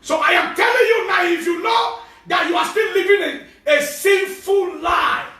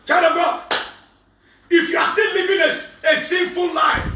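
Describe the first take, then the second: First: Loud higher shout, sinful slowed right down; preaching at full force. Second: Loud higher preaching cry on still and sinful. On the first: Pastor warning sinners again, slow loud preaching shout. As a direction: bellow the warning. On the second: Pastor warning sinners to repent, loud preaching cry. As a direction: call out the sinners. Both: Acted.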